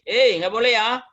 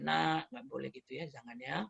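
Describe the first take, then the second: First: Louder, higher parental warning; raised-intonation reproof. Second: Soft parental correction; very gentle reproof. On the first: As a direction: raise the voice to check a child. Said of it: "Naiklah sedikit intonasi". (teguran dengan nada naik) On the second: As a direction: gently tell a child no, voice kept down. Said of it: "teguran kita kadang mulai lembut sekali". (teguran lembut sekali) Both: Acted.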